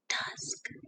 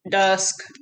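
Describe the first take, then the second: First: It is said in a hushed whisper. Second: It is said in a flat, mechanical voice. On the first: "Can you say it in a whisper voice?" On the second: "Can you say it in a robot voice?"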